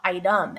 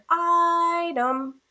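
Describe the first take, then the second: First: Said in the usual way. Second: ITEM called out with a long, high I; dog-calling stress. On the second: Shown as a demonstration. Teacher using the dog calling trick, sing-out "item". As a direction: call "item" like a dog's name, I stretched. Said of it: "use the dog calling trick".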